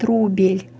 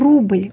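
First: A full vowel is heard between b and l. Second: The b and l join with no vowel.

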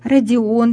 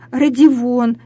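First: The vowels follow each other with no consonant. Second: A v sound is inserted between the vowels. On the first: It is the standard pronunciation. The speaker calls it right. "правильно говорит" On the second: It is a colloquial pronunciation. The speaker calls it wrong. "в просторечии"

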